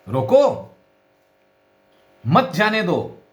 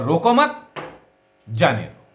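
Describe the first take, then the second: First: "रोको" high and loud, then a long break; pause after रोको. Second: "रोको मत" joined, pause, then "जाने दो" falling; pause after मत. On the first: Teacher repeats the stop order, pause after "रोको". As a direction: punch "रोको", wait, then "मत जाने दो". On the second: Teacher demonstrates letting someone go, pause after "मत". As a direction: run "रोको" into "मत", break, release "जाने दो". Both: Shown as a demonstration. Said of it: "केवल स्वराघात से ही तो हमारी बात को कहते हैं".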